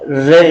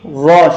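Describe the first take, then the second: First: The r is read thin, with a light vowel. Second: The r is read thick, with a full vowel. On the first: The speaker calls it wrong. "vera re şeklinde değil" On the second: The speaker calls it right. "ra şeklinde okumaya dikkat edelim"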